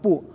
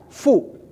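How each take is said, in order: First: The syllable starts with a p sound. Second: The syllable starts with an f sound. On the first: The speaker calls it wrong. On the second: The speaker calls it right.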